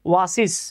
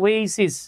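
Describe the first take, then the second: First: The first syllable sounds like 'wah'. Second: The first syllable sounds like 'way'. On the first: The speaker calls it wrong. "উচ্চারণ ভুলভাল করে বলে ফেলছিলাম ওয়াসিস" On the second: The speaker calls it right. "এটা উচ্চারণ হচ্ছে ওয়েসিস"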